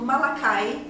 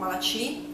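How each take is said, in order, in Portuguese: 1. O nome é dito com pronúncia do inglês americano. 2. O nome é dito com pronúncia do português brasileiro. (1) "Eu estou aqui usando uma pronúncia mais americana" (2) "se você está lendo e você é brasileiro, provavelmente você vai ler Malachi"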